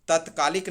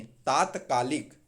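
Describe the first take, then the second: First: तत्कालिक opening on short tat; wrong short first vowel. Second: तात्कालिक drawn slowly, long taat; correct long first vowel. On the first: Teacher rejecting a form, तत्कालिक with short tat. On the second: Teacher correcting students, slow तात्कालिक with long taa. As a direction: stretch taat, then kaalik in तात्कालिक. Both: Shown as a demonstration. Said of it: "तत्कालिक नहीं".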